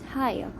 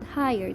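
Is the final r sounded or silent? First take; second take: silent; sounded. First: The final r sound is silent. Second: The final r sound is pronounced. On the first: The speaker calls it right. "they pronounce it higher. So the R at the end is not usually pronounced" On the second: The speaker calls it wrong. "they don't pronounce it higher"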